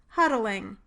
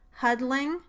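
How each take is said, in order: First: The stop is released normally, giving three syllables. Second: The stop is released laterally, giving two syllables. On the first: "without it" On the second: "with the lateral release"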